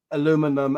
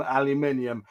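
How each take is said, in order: First: Aluminum in four syllables, stress on LU; American aluminum. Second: Aluminium in five syllables, stress on "min"; British aluminium. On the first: Guest mimics the host's American aluminum. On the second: Guest switches back to his British aluminium. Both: Shown as a demonstration.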